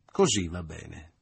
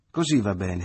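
First: Slow, satisfied approval; Leo approving. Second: Louder cheerful approval; applauding. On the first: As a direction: Leo pleased with his own joke, slow and satisfied. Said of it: "disse Leo". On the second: Mother applauding the hug, louder and cheerful. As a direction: clap the reconciliation. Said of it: "applaudì la madre". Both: A narrator's reading.

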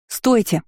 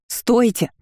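First: High shouted stop. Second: High shout; yell with all her strength. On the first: Heroine shouts after the departing cart. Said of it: "закричала я". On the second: Heroine yells at the guards with all her might. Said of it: "заорала, что было сил". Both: A narrator's reading.

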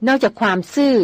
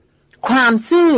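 First: Said in the usual way. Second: "ความซื่อ" drawn out, slow and bitter, half-shouted; near-shout. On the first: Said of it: "พูดเสียงเบาอ่อนหวาน". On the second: A narrator's reading. Hunter throws the lady's word back, half-shouting slowly. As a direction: fling "ความซื่อ" back in scorn. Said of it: "ร้องออกมาเกือบเป็นตะโกน".

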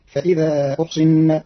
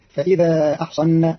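First: أحصن as "uhsinna", opening on u; measured "fa-idha uhsinna" for فإذا أحصن; damma and kasra. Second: أحصن as "ahsanna", opening on a; measured "fa-idha ahsanna" for فإذا أحصن; fatha on both. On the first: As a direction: slowly say أحصن with u on hamza, i on sad. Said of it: "بضم الهمز وكسر الصاد". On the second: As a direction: slowly say أحصن with a on hamza and sad. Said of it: "بفتح الهمز والصاد". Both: Shown as a demonstration.

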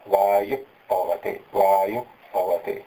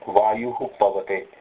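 First: वायु पवते with only a breathy puff before प, said slowly; half visarga. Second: वायुः with a clear हः before पवते, said slowly; full visarga. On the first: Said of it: "उपधमानीय की तरह उच्चारण करें तो". (आधा विसर्ग, धीरे) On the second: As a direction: sound out the visarga of वायुः fully. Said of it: "एक तो ये उच्चारण है". (पूरा विसर्ग, धीरे) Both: Shown as a demonstration.

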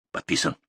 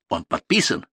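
First: "подписан" low, soft and level; subdued low answer, "подписан" softened; answering statement. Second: ПОДПИСАН lifted sharply as a question; rising challenge on "подписан"; questioning rise. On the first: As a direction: concede "подписан" quietly without any rise. Answer to the same word. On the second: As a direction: ask "подписан" with a jump up in pitch. Question, then answered with same word. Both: A narrator's reading.

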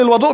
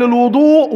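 First: الوضوء said as wadu, an open a after the w, meaning the water; الوضوء with a fatha on the waw, elwaduʔ. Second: الوضوء said as wudu, a rounded u after the w, meaning the act; الوضوء with a damma on the waw, elwuduʔ. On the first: Preacher explains the word meaning ablution water, waw said with a fatha. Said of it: "إنما وضوء بفتح الواو". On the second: Preacher explains the word meaning the act of ablution, waw said with a damma. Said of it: "كلمة وضوء بضم الواو". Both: Shown as a demonstration.

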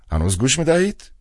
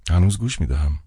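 First: Higher, louder rising question; the old director prodding down the line; old man's voice. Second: Said in the usual way. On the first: A narrator's reading. Kostert checks on phone line.

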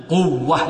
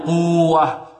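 First: قوة with a firm doubled و; merged waw. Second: قوة with a long uu and single glide; wrong slow قوة without shadda; unmerged waw. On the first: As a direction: press the و, quw-wa, in قوة. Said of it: "هنا ندغم". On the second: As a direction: draw out quu-wa, no pressure on the و of قوة. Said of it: "لا نقول قوة". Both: Shown as a demonstration.

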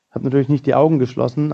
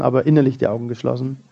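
First: "Augen" lifted and leaned on, brisk pace; quick line peaking on "Augen"; stress on Augen. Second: "innerlich" carries the weight, quick delivery; brisk, contrastive stress on "innerlich". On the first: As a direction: hit "Augen", keep the rest light and quick. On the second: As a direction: punch "innerlich" as the contrast word. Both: Shown as a demonstration.

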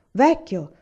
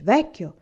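First: The repeated "vecchio" lifted higher and louder; proud insistence, louder on the repeat; proud exclamation, repeated higher. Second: Put-on a proud call to the old man, a bit louder; mildly proud, raised voice; a touch of pride, calling out "Vecchio"; proud exclamation. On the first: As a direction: press the second "vecchio" up, more insistent. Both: A narrator's reading. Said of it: "esclamò orgogliosamente".

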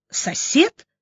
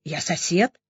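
First: High, rising, doubting echo; sceptical snort. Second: Soft, lower, uncertain reply; timid answer. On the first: Doctor doubting Vanya's claim, sceptical huff. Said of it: "хмыкнула Настя". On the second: Vanya answering the doctor, timid and soft. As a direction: answer meekly, a bit scared. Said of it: "испуганно ответил Ванька". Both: A narrator's reading.

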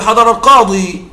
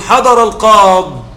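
First: "حضر القاضي" with a clear final long ya; keeping the ya. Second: Slow "حضر القاض" with the final ya cut off; dropping the ya. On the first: Teacher giving students the standard form, plainly. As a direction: sound out the ya in "القاضي". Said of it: "مع أن الأصل نقول". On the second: Teacher showing students the rare pausal form, slow. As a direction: stop on "القاض" with no vowel. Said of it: "ويجوز قليلًا الوقوف بدون الياء". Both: Shown as a demonstration.

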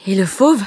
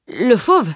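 First: Eager question, rising at the end; question intriguée. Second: Higher echo, falling at the end; question en écho. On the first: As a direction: ask wide-eyed what became of it. Carter anxiously asks about the beast. (question montante, pleine de curiosité) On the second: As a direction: repeat it to stall for time. Boy echoes question, stalling for answer. (répétition hésitante, qui retombe) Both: Acted.

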